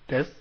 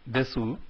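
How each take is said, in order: First: The final u vowel is left silent. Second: The final u vowel is clearly pronounced. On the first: The speaker calls it right. "but as des" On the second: The speaker calls it wrong. "We don't pronounce these words as desu"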